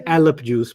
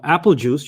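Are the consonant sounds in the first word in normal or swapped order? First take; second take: swapped; normal. First: The first word has its consonant sounds swapped around. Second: The first word keeps its consonants in normal order. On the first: The speaker calls it wrong. "you don't say alep juice by accident" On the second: The speaker calls it right. "when you want to drink"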